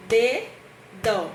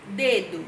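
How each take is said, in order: First: "Dedo" said split into two syllables, "De-do", with a break between them; syllabified. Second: Said in the usual way. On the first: Shown as a demonstration. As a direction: sound out "Dedo" syllable by syllable for the class. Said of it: "Aqui, ó". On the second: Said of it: "separação silábica".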